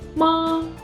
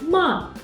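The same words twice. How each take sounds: First: It is said with the first tone. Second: It is said with the fourth tone. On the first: It means mom. "is the first tone" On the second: It means to scold. "is the fourth tone"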